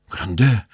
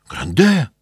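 First: First call, rising, still held back. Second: Higher, louder desperate second call; cry out. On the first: Sick wife calling out to her husband from bed. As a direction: call his name to stop him. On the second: Sick wife crying out to her husband from bed. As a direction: shout his name to stop him. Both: Acted. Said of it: "закричала больная".

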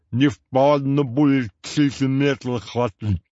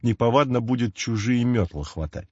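First: «Не впадло будет чужие метлы хватать» slow, slurred and lisped; lisping. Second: Said in the usual way. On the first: A narrator's reading. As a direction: lisp it with a whistle between the teeth. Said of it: "добавил он опять". (шепеляво, со свистком во рту) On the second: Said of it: "Всё это означало".

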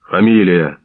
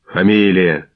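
First: Loud gruff bark of a guard; a louder curt bark at the prison window; barked demand. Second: Curt angry call; an irritated guard shouting at the window. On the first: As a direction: snap the name out like an order. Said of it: "гаркнув з віконця вусатий". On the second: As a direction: bark the name out crossly. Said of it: "сердито вигукнув Мордань". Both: A narrator's reading.

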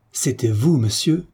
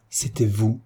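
First: Mildly indignant exclamation, rising; proud indignation. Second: Indignant repeat. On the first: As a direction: exclaim it in affronted disbelief. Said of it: "s'écria Herminie, superbe d'orgueilleuse indignation". (indignation orgueilleuse, contenue) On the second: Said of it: "elle répéta". (répétition indignée, plus retenue) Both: A narrator's reading.

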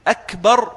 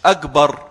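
First: "أكبر" with a crisp unvoiced k, akbar; clear kaf. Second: "أكبر" as agbar, hard g for k; Egyptian jim error. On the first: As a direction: hit a true k sound in أكبر. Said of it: "بالكاف". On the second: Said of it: "أكبر بالجيم المصرية". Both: Shown as a demonstration.

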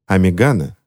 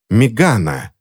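First: Said in the usual way. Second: Understated helpless cry of rage; helpless fury. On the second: A narrator's reading. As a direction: call the name out in mild, powerless anger. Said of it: "в бессильной ярости закричала Корделия".

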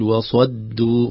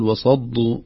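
First: وصدوا with a clean, thin دال; وصدوا slowly, without the heaviness on the دال; correct pronunciation. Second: وصدوا with a دال close to ضاد; a heavy دال in وصدوا, almost ضاد; wrong pronunciation. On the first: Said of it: "نخلص حرف الدال". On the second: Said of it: "تصبح كأنها حرف الضاد". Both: Shown as a demonstration.

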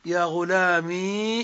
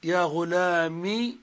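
First: "غلامي" with the final ī held long; slow demo, draw out the ee ending of "غلامي"; long still ya. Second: "غلامي" with a short final i; slow demo, keep the last vowel of "غلامي" brief; kasra without ya. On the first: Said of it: "بإثبات الياء ساكنة". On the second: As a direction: say "غلامي" as ghulāmi, no long ee. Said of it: "بحذف الياء وإبقاء الكسرة". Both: Shown as a demonstration.

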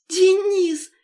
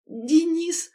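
First: Very high, loud shout of his name; crying out. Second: Higher, louder cry that cracks; his name bursts out and breaks; voice breaking. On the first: Lera shouting to her fiancé, tearful and loud. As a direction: cry it out through tears of joy. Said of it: "крикнула она". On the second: Lera seeing her fiancé, voice cracking with relief. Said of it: "Голос сорвался". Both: A narrator's reading.

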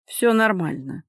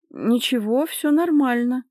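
First: Restrained, with a meagre forced smile; forced reassurance. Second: High, over-bright cover-up; fibbing reassurance. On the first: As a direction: reassure her without much conviction. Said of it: "выдавил он из себя скупую улыбку". (сдержанно, выдавливая улыбку) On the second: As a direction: insist you are fine, pitched up. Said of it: "слукавила она". (лукавя, высоким голосом успокаивать) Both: A narrator's reading.

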